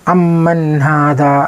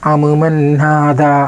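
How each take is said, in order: First: The m sounds merge into one doubled m. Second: The m sounds are pronounced separately, not merged. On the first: The speaker calls it right. "ഉഷാറിൽ" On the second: The speaker calls it wrong. "ഇദ്ഗാം ചെയ്യാതെ വായിക്കുമ്പോൾ"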